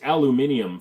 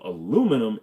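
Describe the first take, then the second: First: It is said in the British form. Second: It is said in the American form. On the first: It is meant for listeners outside America. "for all of my non-American brethren" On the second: It follows the inventor's own choice. "is actually the right way to pronounce it"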